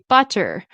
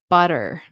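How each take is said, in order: First: The middle T is a clear, crisp T. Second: The middle T is a quick, soft flap. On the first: "like you'd say butter" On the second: "the flap T, we'd say butter"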